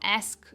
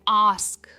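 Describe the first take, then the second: First: The vowel sounds like 'eh' in bed. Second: The vowel sounds like 'ah' in father. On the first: The speaker calls it wrong. "Not एस्क" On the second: The speaker calls it right. "It's आस्क"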